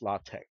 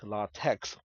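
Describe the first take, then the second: First: The word ends with a k sound. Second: The word ends with a ks sound. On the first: The speaker calls it right. "It is pronounced LaTeX without the S sound" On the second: The speaker calls it wrong. "That's why it's not pronounced LaTeX"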